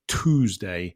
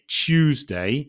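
First: It is said in an American accent. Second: It is said in a British accent. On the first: "the Americans say Tuesday" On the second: "in British English, we say Tuesday"

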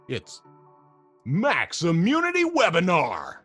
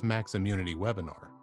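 First: It is said loudly with hyped-up excitement. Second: It is said in a plain, flat way.

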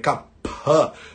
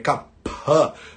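First: The middle consonant is a breathy aspirated p. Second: The same.

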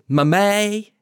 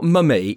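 First: The pitch rises at the end of the word. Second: The pitch falls at the end of the word. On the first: The speaker calls it right. "It always goes up at the end" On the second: The speaker calls it wrong. "it's not mummy"

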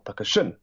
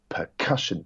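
First: The stress is on the last syllable. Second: The stress is on the middle syllable. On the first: The speaker calls it wrong. "or percussion" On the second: The speaker calls it right. "That middle syllable is emphasized"

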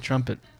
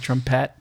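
First: The word is said with an English accent. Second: The word is said with a French accent. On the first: "you say trumpet" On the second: "I'm French, so sometimes I combine French and English pronunciations"

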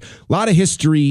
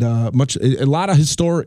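First: The word history has its normal, usual inflection. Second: The word history has an odd, unusual inflection. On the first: The speaker calls it right. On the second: The speaker calls it wrong.

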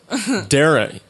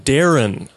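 First: The end of the name is cut short. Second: The end of the name is fully pronounced. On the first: The speaker calls it wrong. "Irish people don't finish their words" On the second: The speaker calls it right. "you mean Darren. You have to finish"

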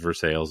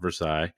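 First: It uses the local Indiana pronunciation. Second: It uses the French pronunciation. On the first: It names the town in Indiana. The speaker calls it right. "It is Versailles, Indiana is called Versailles" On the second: It names the place in France. The speaker calls it wrong. "not Versailles. Versailles is in France"

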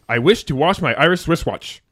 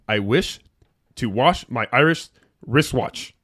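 First: It is said fast. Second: It is said slowly.

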